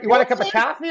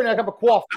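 First: "coffee" as "cah-fee", Boston style, high-pitched; Boston accent. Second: "coffee" as "caw-fee", New York style, high-pitched; New York accent. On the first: Joking about city accents with friends, Boston "coffee". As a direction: offer "coffee" with an open Boston ah. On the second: Joking about city accents with friends, New York "coffee". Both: Shown as a demonstration. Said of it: "Boston and New York".

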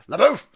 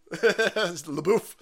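First: Loud call. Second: Said in the usual way. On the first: Shown as a demonstration.

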